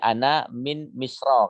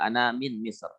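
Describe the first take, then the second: First: The last word ends with a short vowel. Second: The last word ends on a bare consonant. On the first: "Jadi ana min misra kalau mau dibaca" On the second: "Kalau disukunkan berarti ra-nya sukun juga"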